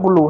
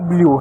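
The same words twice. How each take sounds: First: ब्लू said "bloo", no y-glide; ब्लू with plain oo. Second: ब्लू said "blyoo"; ब्लू with y-glide. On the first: Teacher contrasts the colour word for students, ब्लू as plain "bloo". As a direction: say ब्लू as "buh-loo", straight into oo. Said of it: "ये अलग ब्लू है". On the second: Teacher shows students the other word, ब्लू glided as "blyoo". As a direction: slip a y sound after the l in ब्लू, "bli-oo". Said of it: "वो अलग ब्लू है". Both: Shown as a demonstration.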